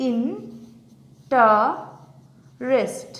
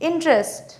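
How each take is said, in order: First: "interest" very slowly, long pauses between three syllables. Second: Said in the usual way. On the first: Shown as a demonstration. Teacher showing how interest breaks up, syllable by syllable. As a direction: isolate each syllable of "interest". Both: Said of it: "আমি ভেঙে দেখাই".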